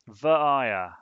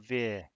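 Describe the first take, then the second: First: It ends in an open 'uh' vowel. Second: It ends in an 'r' sound. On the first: The speaker calls it right. "A via" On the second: The speaker calls it wrong. "not a veer"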